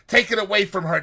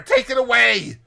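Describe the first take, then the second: First: High, loud desperate plea; frantic plea. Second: Even higher, louder, near-shriek; rising panicked cry. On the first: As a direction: beg them to seize the shroud. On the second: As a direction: panic peaks on the repeat. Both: Retold or imitated. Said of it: "Next he cries".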